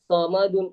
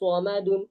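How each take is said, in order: First: The first sound is light, with the lips unrounded. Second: The first sound has the lips pushed forward. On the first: "ചിലര് ആ സൊമദുൻ അവിടെ സീനാണ് സീനായിട്ട് മാറും" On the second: "ചുണ്ട് മുന്നോട്ടാക്കി പറയും"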